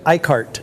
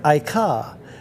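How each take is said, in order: First: The name is pronounced the American way. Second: The name is pronounced the French way. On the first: "most Americans say Icart" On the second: "Now it is Icare"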